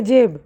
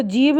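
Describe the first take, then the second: First: "जेब" with a long e vowel; correct e vowel. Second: "जीब" with a long ee vowel; wrong long-i vowel. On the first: Teacher correcting the reading for students, "जेब" with an e sound. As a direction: say "जेब" with e, not ee. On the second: Teacher showing students the misreading, "जीब" with an ee sound. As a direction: say "जीब" with ee in place of e. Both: Shown as a demonstration. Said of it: "जीब नहीं पढ़ेंगे जेब".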